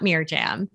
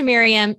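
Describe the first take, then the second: First: The middle consonant is a hard J sound. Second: The middle consonant is a soft Y sound. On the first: The speaker calls it wrong. "It's not Mirjam" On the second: The speaker calls it right. "We pronounce the J in Jason's name, but not in Miriam's"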